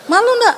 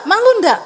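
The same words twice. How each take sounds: First: Teasing laugh. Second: Said in the usual way. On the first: Acted. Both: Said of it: "repeated question".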